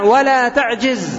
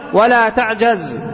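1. الحركة بعد الجيم هي 'i'. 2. الحركة بعد الجيم هي 'a'. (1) "كسر الجيم في المضارع" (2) "وفتحها في المضارع ولا تعجز"

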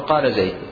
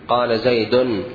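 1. لا ينتهي زيد بنون زائدة. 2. ينتهي زيد بنون زائدة. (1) "الصواب قال زيد" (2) "بإظهار التنوين في الوقف"

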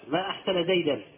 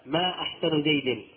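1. تنتهي الكلمة الأخيرة بصوت 'an'. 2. تنتهي الكلمة الأخيرة بصوت 'i'. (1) "وعندما نطقناه بالنصب كان تعجبا" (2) "وعندما نطقناه بالجر كان استفهاما"

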